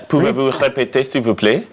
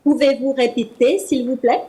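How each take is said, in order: First: Pouvez-vous répéter echoed carefully; learner repeat. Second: Pouvez-vous répéter said in French; French demo. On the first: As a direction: copy the teacher's French. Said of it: "there's some practice there". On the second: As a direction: model French phrase. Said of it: "Can you repeat, please?". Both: Shown as a demonstration.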